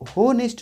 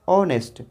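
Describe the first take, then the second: First: The word begins with an audible h sound. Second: The word begins directly with a vowel sound. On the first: The speaker calls it wrong. "इसको होनेस्ट नहीं बोलते हैं" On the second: The speaker calls it right. "H silent हो जाता है"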